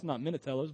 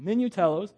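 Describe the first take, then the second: First: "Minatellos" with an "a" in the second syllable, quieter; the mistaken way to say "Minatellos"; wrong name. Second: "Minutellos" with a clear "u" sound, mi-nu-TEL-los; corrected name. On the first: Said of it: "but Minutellos". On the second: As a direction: set the name straight, "Minutellos". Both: Shown as a demonstration.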